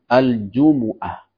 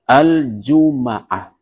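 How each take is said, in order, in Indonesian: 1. Huruf m diikuti vokal u. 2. Huruf m diikuti vokal a. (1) "dengan mendhammah huruf mim" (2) "dengan memfathah huruf mim"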